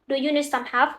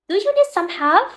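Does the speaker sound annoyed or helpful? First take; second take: annoyed; helpful. First: It sounds irritated and impatient with the listener. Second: It sounds like a sincere, friendly offer. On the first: The speaker is annoyed with the listener. "it can show that you are annoyed with the person you are talking to" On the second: The speaker is really offering to help. "it can be a simple question uh, where you are really offering to help"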